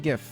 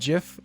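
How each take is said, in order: First: It starts with a hard G sound. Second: It starts with a J sound. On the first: "I say GIF" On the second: "like the peanut butter"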